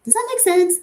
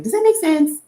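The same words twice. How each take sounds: First: Said in the usual way. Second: Imitating a French choreographer's accent, "make" stretched; loving French-accent impression of a dance teacher; light French accent, louder and raised. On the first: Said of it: "he's like". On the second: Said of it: "in his French accent".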